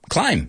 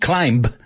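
First: The word ends without any B sound. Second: A B sound is pronounced at the end. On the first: The speaker calls it right. "No, climb" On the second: The speaker calls it wrong. "cuántas veces he oído un alumno decir climb"

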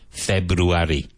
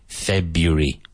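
First: The word is said with four syllables. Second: The word is said with three syllables. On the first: The speaker calls it wrong. "none of them are February" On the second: The speaker calls it right. "So I say February. Three syllables"

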